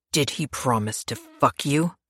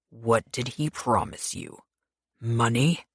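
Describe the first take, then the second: First: Snarled. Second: Softer, slow, menacing question; quiet menace. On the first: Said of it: "Pierce snarled". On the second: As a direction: press her quietly and slowly. Pierce interrogates her with knife. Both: Acted.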